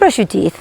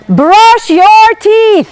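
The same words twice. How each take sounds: First: It is said lightly and casually. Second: It is said firmly and insistently. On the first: It is an easy, low-pressure request. "It's not a big deal" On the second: The request is now being enforced. "then you go brush your teeth"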